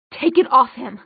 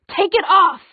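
First: Firm, louder command; angry demand. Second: Higher, louder angry cry; furious demand. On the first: Isabel turning on the queen for Alec, angry demand. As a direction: order it with contained anger. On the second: Isabel demanding the queen lift the glamour, furious. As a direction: burst out with the order. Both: A narrator's reading.

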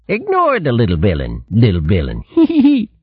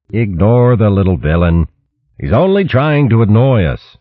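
First: Higher, sneering copy with giggle; jeering copycat snicker; mocking mimicry. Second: Said in the usual way. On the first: A narrator's reading. Rat parrots Martin again.

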